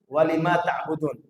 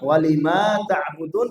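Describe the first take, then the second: First: The long vowel is cut short. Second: The long vowel is held for two counts. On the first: "Dihilangkan lagi matnya yang dua harokat" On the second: "yang pertama"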